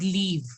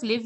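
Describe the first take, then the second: First: "leave" with a long ee. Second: "live" with a short i, as in give; short i, English live. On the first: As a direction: model "leave" as the end of French olive. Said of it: "you have to pronounce it as leave". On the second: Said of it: "instead of live". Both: Shown as a demonstration.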